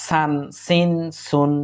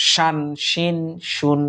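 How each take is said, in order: First: সান সিন সুন with a plain, light dental s; light s sound. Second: শান শিন শুন with a firm, heavier sh; harder sh sound. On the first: Teacher to students, সান সিন সুন with light s. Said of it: "প্রথমটা হচ্ছে". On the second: Teacher contrasting letters for students, শান শিন শুন with firm sh. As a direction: give শান শিন শুন a stronger sh than সান. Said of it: "পরেরটা একটু শক্ত". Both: Shown as a demonstration.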